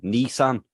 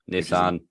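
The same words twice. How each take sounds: First: The first syllable sounds like 'knee'. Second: The first syllable sounds like 'niss'. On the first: The speaker calls it wrong. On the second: The speaker calls it right.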